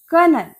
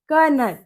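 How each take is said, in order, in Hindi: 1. यह शब्द 'ker' ध्वनि से शुरू होता है। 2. यह शब्द 'ker' ध्वनि से शुरू होता है।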